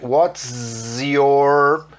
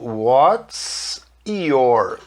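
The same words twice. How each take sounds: First: The words are linked, with a z sound. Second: The words are separated, with an s sound. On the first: "quando eu faço a emenda falando S junto com o Y, fica com som de Z" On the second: "Se eu falasse pausado"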